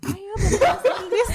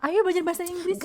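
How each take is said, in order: First: It is said slowly, like slow motion. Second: It is said at normal, quick speed.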